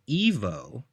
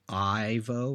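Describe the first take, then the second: First: The name begins with an 'ee' sound. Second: The name begins with a long 'eye' sound. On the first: "So they were pronouncing it as Evo" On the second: "Instead of having the letter I with the horizontal line above it, so you say Ivo"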